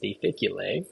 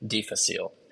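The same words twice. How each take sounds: First: It is pronounced the Latin way. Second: It is pronounced the common English way. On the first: "the Latin way I've heard is difficile" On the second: "usually people say difficile in uh, common English"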